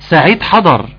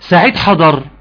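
First: It is said with a statement tune. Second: It is said with a questioning tune. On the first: Announcing that the person has arrived. "عرف ان خلاص سعيد حضر" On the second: Asking whether the person has arrived. "الاول سؤال سعيد حضر"

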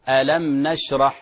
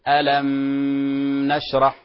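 First: The meem is clear, with no nasal hum. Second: The meem is held with a nasal hum. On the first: The speaker calls it right. "يسمى إظهار شفوي" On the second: The speaker calls it wrong. "لا نقول"

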